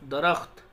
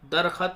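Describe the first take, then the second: First: The kh and t join with no vowel. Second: An extra vowel separates the kh and t. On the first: The speaker calls it right. "दरख्त के माने होता पेड़" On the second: The speaker calls it wrong. "दरखत नहीं बोलना इसको"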